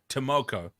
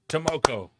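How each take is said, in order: First: The stress is on the middle syllable. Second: The stress is on the last syllable. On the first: "Emphasis on mo" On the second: "Is the emphasis meant to be on ko?"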